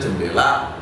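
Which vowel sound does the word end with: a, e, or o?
a. The word ends with an a sound. "kalau di Banyumas ngomong jendela itu ya jendela"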